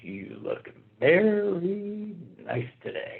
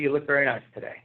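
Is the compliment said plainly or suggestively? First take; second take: suggestively; plainly. First: It is said in a suggestive, leering tone. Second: It is said in a plain, friendly tone. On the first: It implies inappropriate interest. "the inflection, giving somebody the once over" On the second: It is an innocent compliment. "I can say to Mindy"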